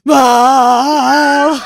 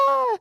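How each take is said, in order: First: It is a deep, guttural scream. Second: It is a high-pitched scream.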